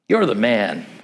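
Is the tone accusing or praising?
praising. It is said as casual praise.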